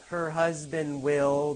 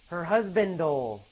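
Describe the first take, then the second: First: The word will is said in full. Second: The word will is reduced onto husband. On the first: "Not her husband will be"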